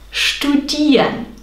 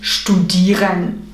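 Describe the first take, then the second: First: The R is a vowel sound like A. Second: The R is a clear consonant sound. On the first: The speaker calls it right. "du sprichst ein A aus anstelle von R in Suffixen" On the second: The speaker calls it wrong. "und nicht studieren"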